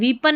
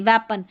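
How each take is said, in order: First: The first vowel is a long ee sound. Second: The first vowel is a short eh sound. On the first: The speaker calls it wrong. "वीपन नहीं" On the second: The speaker calls it right. "नहीं वेपन"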